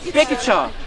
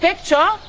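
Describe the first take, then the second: First: The consonant cluster is broken up. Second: The consonant cluster is said intact. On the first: The speaker calls it wrong. "not picture" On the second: The speaker calls it right. "we say picture"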